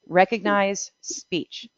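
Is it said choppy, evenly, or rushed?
evenly. The syllables are said evenly without pauses. Each word is treated as a whole unit. The speaker calls it right.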